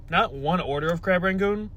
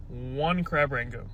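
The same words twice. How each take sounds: First: "one order" held up for correction, voice lifted; contrastive setup. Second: Slow, deliberate "one crab rangoon", falling at the end; stress on ONE. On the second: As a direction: draw out "one" as the correction. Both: Real, not acted.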